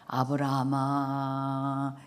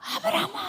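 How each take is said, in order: First: The name is called calmly and slowly. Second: The name is called urgently and quickly.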